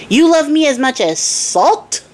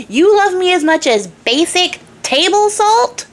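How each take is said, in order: First: Higher, slower disbelief; indignant king. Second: Much higher, slower, peaking outrage; incredulous king. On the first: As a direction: ask it like an insulted king. King's first indignant question. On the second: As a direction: climb to full incredulity. King's escalated indignant question. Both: Acted.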